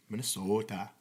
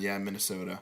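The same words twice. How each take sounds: First: Put-on Minnesota with long rounded Minnesota accent vowels; mock Minnesota accent. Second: Said in the usual way. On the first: Asked by a friend, trying out a mock Minnesota accent. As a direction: stretch Minnesota out in a jokey Minnesota accent. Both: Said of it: "like, a Minnesota accent?".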